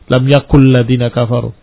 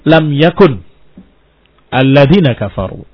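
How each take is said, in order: First: The final n merges into the following l. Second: Yakun is cut off before the next word. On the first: "mau di idghamkan ... salah ya" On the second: "kalau diputus-putus"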